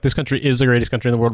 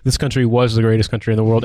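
First: Quick boast leaning on "is"; "is" picked out for contrast; stress on IS. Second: "was" picked out for contrast; stress on WAS. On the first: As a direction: put the weight on the present-tense "is". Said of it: "More like, ... versus". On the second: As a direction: boast leaning on "was". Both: Shown as a demonstration.

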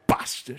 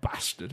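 First: Bastard with a hard, popped B at the start; bastard, B thrown hard at the listener; punched B. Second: Said in the usual way. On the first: Shown as a demonstration. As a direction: spit out the B in bastard. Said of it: "really throws that B at you". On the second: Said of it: "It's not bastard".

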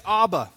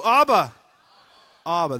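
First: Said in the usual way. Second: With gusto. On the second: Shown as a demonstration. Preacher leads congregation in repeating the word, with gusto. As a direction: belt it out with gusto. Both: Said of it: "say it again with more gusto".

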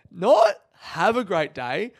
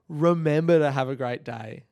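First: NOT punched high and loud; slow, incredulous correction with a hard hit on "not"; stress on NOT. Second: REMEMBER hit loud and firm; stress on REMEMBER. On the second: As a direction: punch the word "Remember" to make the point. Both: Shown as a demonstration. Contrasts two wordings of voicemail sign-off.

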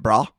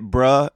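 First: "brah" said with an open ah, as in spa; BRAH with ah vowel. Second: "bruh" said with a short uh, as in cup; BRUH with uh vowel. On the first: Asking who gets which word, "brah" with an open ah. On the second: Asking who gets which word, "bruh" with a short uh. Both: Shown as a demonstration.

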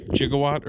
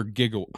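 First: "Gigawatt" with a soft G, as in gem; "Gigawatt" pronounced jigga-watt. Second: "gigawatt" with a hard G, as in gift; "gigawatt" pronounced with G as in go. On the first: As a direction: say "Gigawatt" starting with a J sound. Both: Shown as a demonstration. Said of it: "pronounced gigawatt or gigawatt".

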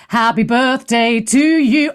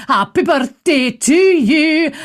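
First: Put-on sung, slow birthday song in her own accent; birthday singing. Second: Birthday song in a Scots accent. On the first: Host singing to her friend on his birthday, slow song. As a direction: sing it slowly in your usual accent. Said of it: "so gotta do it". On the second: Shown as a demonstration. Host singing to friend in Dundee, Scots accent. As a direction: sing it slowly with a put-on Scots accent. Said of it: "I'll do it in a Scots accent".

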